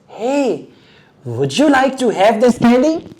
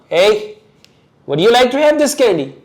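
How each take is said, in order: First: It is said in a friendly, pleasant tone. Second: It is said in an angry, harsh tone. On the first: "One thing is this"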